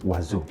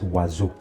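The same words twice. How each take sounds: First: The middle consonant is a buzzing Z sound. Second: The middle consonant is a buzzing Z sound.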